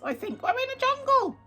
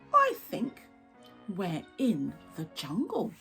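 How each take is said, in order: First: It is said in a squawky parrot voice. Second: It is said in a normal voice.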